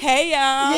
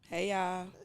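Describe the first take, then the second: First: It is said with more energy. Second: It is said with little energy.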